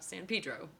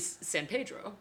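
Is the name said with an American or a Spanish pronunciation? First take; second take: American; Spanish. First: The name is said with an American pronunciation. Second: The name is said with a Spanish pronunciation. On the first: This is how locals in California say it. The speaker calls it wrong. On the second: This is the original Spanish form. The speaker calls it right. "Just like it should be"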